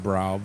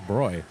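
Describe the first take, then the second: First: The vowel rhymes with cow. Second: The vowel rhymes with boy. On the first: The speaker calls it wrong. "you would think it'd be Brau" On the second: The speaker calls it right. "but it's Broy"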